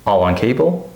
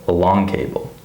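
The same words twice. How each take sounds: First: "All on cable" with stressed ALL, rising end; first-word stress. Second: "a long cable" with light "a", stressed LONG, falling end; second-syllable stress. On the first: Teacher replaying the contrast, "All on cable" stressed on "All". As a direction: hit "All". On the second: Teacher replaying the contrast, "a long cable" stressed on "long". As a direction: lean on "long". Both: Shown as a demonstration. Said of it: "So listen to the difference".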